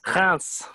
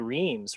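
First: The name is pronounced the French way. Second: The name is pronounced the English way. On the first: "Do you know how it's pronounced in French?" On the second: "in English we'd say Reims"

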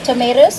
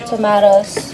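First: It is said in an American accent. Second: It is said in a British accent.

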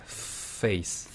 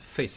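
First: The f sound at the start is drawn out long. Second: The f sound at the start is kept short. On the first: It is exaggerated on purpose for practice. "길게, 좀 더 길게" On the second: This is how it is said in real conversation. "실제로 얘기를 할 때는 face 이렇게 짧게 할 거지만"

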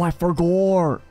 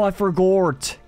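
First: The last word ends in an R sound. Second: The last word ends in a T sound. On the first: The speaker calls it wrong. "I can't stop saying forgore instead of forgot" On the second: The speaker calls it right. "just drop in that T sound"

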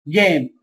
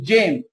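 First: It starts with a hard g sound. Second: It starts with a soft j sound. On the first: The speaker calls it right. "هنا جيم" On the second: The speaker calls it wrong. "ما قلتش جيم"

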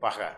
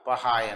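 First: The word ends in a plain a vowel. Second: The word ends in an ai sound. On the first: This is the written form. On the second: This is the colloquial spoken form.

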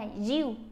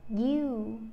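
First: The initial y sound is too strong. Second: The initial y sound is gentle but clear. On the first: The speaker calls it wrong. "một bên thì nặng quá" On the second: The speaker calls it right. "nhẹ nhàng thôi"

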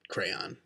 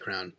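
First: The word is said in full with two syllables. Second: The word is squeezed into one syllable. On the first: "but crayon" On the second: "if I thought about it and I said it really fast, I'd probably say crown"

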